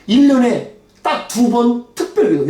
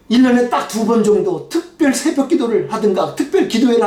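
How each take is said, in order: First: 일 drawn out and weighted, the phrase spoken slowly; slow, heavy stress on 일 and 딱 두 번; slow indignant stress. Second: Said in the usual way. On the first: Real, not acted. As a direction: lean hard on 일 년에 딱 두 번, slowly, in disbelief. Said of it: "아니, 어떻게". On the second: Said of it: "막 화가 났어요".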